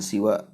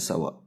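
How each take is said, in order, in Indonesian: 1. Vokal pertama adalah bunyi 'i'. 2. Vokal pertama adalah bunyi 'a'. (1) "tidak dibaca dengan siwa" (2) "baca dengan sawa"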